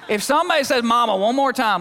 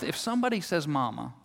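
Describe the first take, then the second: First: Louder, higher exasperated outburst; mock-furious mom. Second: Soft muttered threat; mumbling under breath. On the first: Fed-up mom warns her kids, loud and high. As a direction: let it burst out like a mom at the end of her rope. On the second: Retold or imitated. Worn-out mom mutters under her breath, soft. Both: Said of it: "mumbling under her breath".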